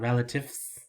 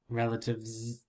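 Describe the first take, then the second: First: The word ends with an s sound. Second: The word ends with a z sound. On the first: The speaker calls it wrong. "But you don't hear s sound" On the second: The speaker calls it right.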